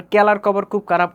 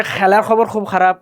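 First: Mymensingh plain k for each kh; Mymensingh accent. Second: Sylheti fricative for each kh; Sylheti accent. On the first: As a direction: drop the puff, Mymensingh style. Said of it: "ওইটাও হবে না". (ময়মনসিংহের টানে ক দিয়ে) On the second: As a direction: scrape the kh like a Sylheti speaker. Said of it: "সিলেটিদেরকে বলবেন". (সিলেটি টানে ঘষা খ) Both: Retold or imitated.

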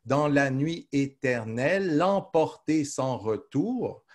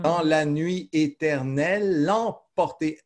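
First: Very slow, "éternelle" running on into "l'emporter"; slower verse recital. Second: Slow, a little higher, the final e held before emporter; slow verse recital. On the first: Teacher repeating the line to show how the syllables are counted. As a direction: glide "éternelle" straight into "l'emporter", no break. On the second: Teacher showing the elision of the mute e, slow recital. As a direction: stretch éternelle into l'emporter. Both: Shown as a demonstration. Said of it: "Vous voyez comment, euh, on compte".

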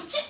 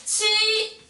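First: Quick exclaimed "치!"; interjection of feeling. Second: "치" held long and pitched high; word-part "치". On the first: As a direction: toss out "치!" as a short, emotional interjection. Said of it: "이건 감탄사인데 감정이지". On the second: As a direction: stretch "치" slowly on a raised, sustained note. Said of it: "근데 단어에서". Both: Shown as a demonstration.

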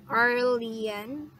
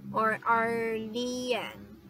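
First: "Arlian" said quickly with a questioning rise; tentative pronunciation. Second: "Arlian" drawn out slowly, falling at the end; alternative pronunciation. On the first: Streamer checks a viewer's name, "Arlian" tentative and rising. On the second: Streamer offers the viewer another reading, "Arlian" slow and drawn out. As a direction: stretch out "Arlian" syllable by syllable. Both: Shown as a demonstration. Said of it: "How do you pronounce your name?".

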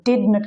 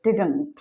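First: Did not as two full words; uncontracted form. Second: Didn't as one word with a swallowed vowel; contracted form. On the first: Teacher giving the full form, did not said separately. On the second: Teacher showing the contraction, didn't run into one word. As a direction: compress did not into didn't. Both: Shown as a demonstration. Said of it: "কে উচ্চারণ করা হয়".

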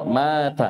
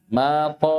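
First: Thin, front final T in مات; light tā'. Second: Heavy, dark final T in ماط; emphatic ṭā'. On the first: Teacher contrasts tā' at word end, light T. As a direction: end مات on a plain dental T. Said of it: "فرقوا بين الطاء والتاء". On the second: Teacher shows ṭā' at word end, emphatic T. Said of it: "طاء في آخر الكلمة". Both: Shown as a demonstration.

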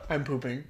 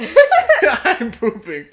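First: Low, soft, understated read; deadpan reading. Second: Higher, louder, slowly stretched through laughter; laughing repeat. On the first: Reading the funny tweet to her co-host, deadpan. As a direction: drop it quietly with a straight face. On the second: Repeating the tweet that got her, laughing. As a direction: draw it out while cracking up. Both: Acted.

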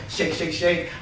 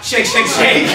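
First: Soft, low sing-along to yourself; chanted, say it under your breath, just for yourself; chanted, quiet bathroom self-reminder; private murmured chant. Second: Louder, fuller repeated chant; out-loud bathroom chant. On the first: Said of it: "I go". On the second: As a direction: announce it for the next man to hear. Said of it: "I said it out loud". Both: Retold or imitated.

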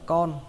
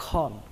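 First: CON without the puff of air; hard unaspirated K. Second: CON with a breath after the K; aspirated KH. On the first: Teacher showing learners the mistake, unaspirated K. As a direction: say "con" with a dry K, like Vietnamese "con". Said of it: "Nó không phải là con". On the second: Teacher correcting learners, aspirated KH. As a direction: say "con" as "khon". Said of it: "Các bạn nhớ khờ nó ra nhé". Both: Shown as a demonstration.

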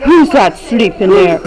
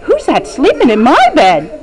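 First: A touch lower, lightly voiced Papa Bear asking "Who's that sleeping there?"; mild big bear, dropped down low. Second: Quick, lightly voiced little bear asking "Who's that sleeping in my bed?"; a hint of a small bear, brisk and fast; Baby Bear voice. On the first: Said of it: "what did Papa Bear say?". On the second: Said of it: "What did Baby Bear say?".

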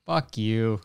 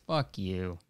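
First: Said in the usual way. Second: "Fuck you." muttered softly under the breath; quiet first "Fuck you.". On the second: Acted.

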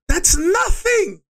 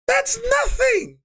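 First: Slow, much higher shout; angry shout. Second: Even higher, slow shout with "That's" punched; furious shout. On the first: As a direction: yell it out slowly in disbelief. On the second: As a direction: scream "That's" at the top of the voice. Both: Retold or imitated. Angry rant at district manager.

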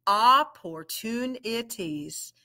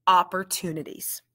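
First: "Opportunities" said slowly, syllable by syllable; segmented "Opportunities"; slow, split into syllables. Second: "Opportunities" said fast, all in one piece; quick, blended "Opportunities". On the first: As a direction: break it into parts. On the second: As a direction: blend it smoothly. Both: Shown as a demonstration. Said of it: "We're gonna blend it".

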